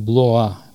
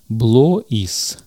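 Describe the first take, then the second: First: It is read with 'wa' and no final s. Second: It is read with 'o-i' and a final s. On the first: The speaker calls it right. "вместо OI надо читать UA" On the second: The speaker calls it wrong. "так бы прочитали его, конечно, русские люди"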